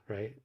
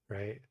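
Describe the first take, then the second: No difference in how they are said.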